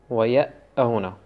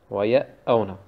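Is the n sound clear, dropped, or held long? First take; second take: dropped; dropped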